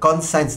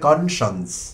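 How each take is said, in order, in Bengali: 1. শেষের অংশটি 'science' শব্দের মতো শোনায়। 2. শেষের অংশটি একটি ছোট 'shuns' ধ্বনি। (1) "বানান যেরকম আছে সেভাবে আমরা খুবই আয়েসের সঙ্গে উচ্চারণ করে ফেলি" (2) "শুদ্ধ উচ্চারণ হবে কনশনস"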